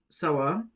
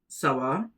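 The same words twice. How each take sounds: Both takes have the same delivery.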